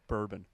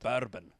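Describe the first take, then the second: First: It is said in a plain natural voice. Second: It is said in a Scottish-accented clown voice.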